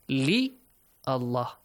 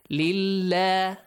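First: The two words are said separately. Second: The two words are joined into one. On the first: "Two words are there" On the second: "when you join li with the word Allah, Hamzatul Wasl will be omitted"

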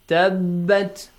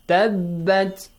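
No difference in how they are said.

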